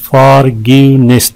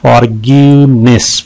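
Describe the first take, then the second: First: "फॉरगिवनेस" in three measured beats; syllable breakdown. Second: "फॉरगिवनेस" in three clear beats; syllable breakdown. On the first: ("फॉरगिवनेस" हिस्सा-हिस्सा करके) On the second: ("फॉरगिवनेस" तीन साफ़ हिस्सों में) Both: Shown as a demonstration. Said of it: "तीन है इसमें".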